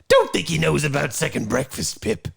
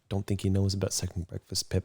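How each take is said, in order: First: It is said in a put-on, villainous character voice. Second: It is said in a plain, normal speaking voice. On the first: "we are going to do Mark Hamill's Joker" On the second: "Although he doesn't say I, he says don't"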